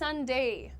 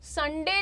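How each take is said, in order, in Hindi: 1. अंत एक सरकने वाला द्विस्वर है। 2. अंत एक सादा एकल स्वर है। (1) "इट्स संडे... डिफ्थोंग का साउंड ही होता है ए" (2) "संडे नहीं होता है"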